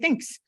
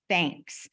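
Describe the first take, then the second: First: The vowel is reduced so it sounds like thinks. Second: The word is said crisply with a clear vowel. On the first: The speaker calls it wrong. "it comes out thinks" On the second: The speaker calls it right. "I have to really say"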